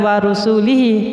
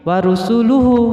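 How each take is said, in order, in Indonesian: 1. Kata itu berakhir dengan bunyi 'ihi'. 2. Kata itu berakhir dengan bunyi 'uhu'. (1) "aslinya bukan wa rusulihi" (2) "tapi wa rusuluhu"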